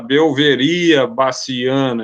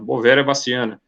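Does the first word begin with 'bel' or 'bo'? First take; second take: bel; bo. First: The first word begins with a 'bel' sound. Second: The first word begins with a plain 'bo' sound. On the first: The speaker has less experience with the subject. The speaker calls it wrong. "quem tem menos experiência fala" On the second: The speaker is experienced with the subject. The speaker calls it right. "A gente que está mais acostumado fala"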